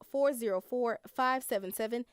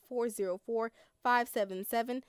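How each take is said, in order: Both takes have the same delivery.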